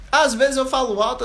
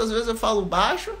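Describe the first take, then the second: First: A touch louder on these words; slightly raised voice; said loudly. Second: Said in the usual way. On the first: Shown as a demonstration. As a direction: lift the voice a little as you say loud.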